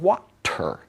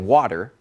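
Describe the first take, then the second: First: The t is a crisp clear stop. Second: The t is a quick soft flap. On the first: "unless you say it slow, or if you're British" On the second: "you say it fast"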